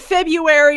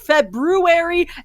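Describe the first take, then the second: First: It is said the usual way, first r dropped. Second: It is said as spelled, first r sounded.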